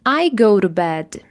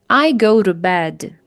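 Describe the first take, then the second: The two takes are said the same way.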